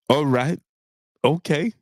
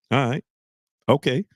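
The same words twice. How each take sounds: The two takes are said the same way.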